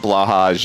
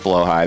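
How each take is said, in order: First: The word ends with a 'j' sound. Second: The word ends with a 'high' vowel. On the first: The speaker calls it wrong. "it's not blowhage" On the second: The speaker calls it right. "That's the actual correct pronunciation of it"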